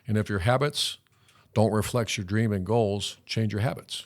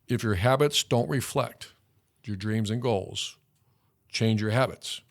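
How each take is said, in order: First: It is said at a normal pace. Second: It is said slowly and deliberately.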